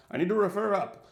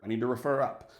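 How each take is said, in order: First: Mock-British, higher and more pompous; hammed-up British accent, stressing "refer"; lame British accent. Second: A bad, light British accent; clumsy mock-British officer; lame British accent. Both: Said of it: "This is my lame British accent".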